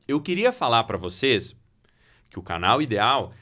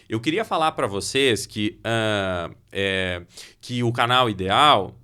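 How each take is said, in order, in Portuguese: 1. Uma pausa silenciosa substitui os sons de preenchimento. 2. A hesitação é preenchida com os sons 'ah' e 'é'. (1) "aí você criou uma expectativa, você parou" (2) "já quebrou, arrebentou a minha fala"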